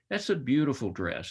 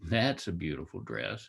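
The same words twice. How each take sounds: First: It is said in a sincere, admiring tone. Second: It is said in a mocking, ironic tone. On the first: The speaker genuinely likes the dress. "I'm praising" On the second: The speaker does not really like the dress. "I might be being sarcastic"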